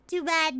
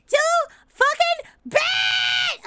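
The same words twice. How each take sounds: First: Said in the usual way. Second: Drawn-out, higher-pitched playful yell; mock defiant shout. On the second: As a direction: stretch it out slowly and loudly, gloating. Louder drawn-out repeat after laughing.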